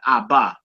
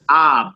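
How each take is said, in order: First: A vowel is added after the final consonant. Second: The word ends on the bare consonant. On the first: The speaker calls it wrong. "not abba" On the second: The speaker calls it right. "We just say ab"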